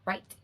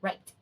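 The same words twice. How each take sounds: Both takes have the same delivery.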